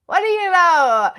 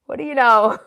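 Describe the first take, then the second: First: Laughing higher and slower, louder. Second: Laughing out the question, louder. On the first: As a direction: stretch What do you know up high through a laugh. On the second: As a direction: chuckle through What do you know. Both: Real, not acted.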